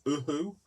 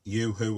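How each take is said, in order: First: It is said the American way. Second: It is said the British way, like yoo-hoo.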